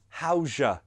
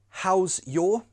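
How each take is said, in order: First: The word 'your' is reduced to 'ya'. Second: The word 'your' is said in full.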